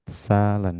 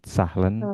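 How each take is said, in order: First: No h sound is heard mid-word. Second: An h sound is heard mid-word. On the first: The speaker calls it right. "H di tengah kata tidak dibaca. Salen ya" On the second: The speaker calls it wrong. "bukan sahlen"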